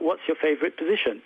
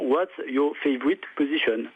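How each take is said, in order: First: It is said with a native English accent. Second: It is said with a strong French accent. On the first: "un véritable anglophone prononcerait ça" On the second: "une retranscription phonétique qui tient compte de l'accent français"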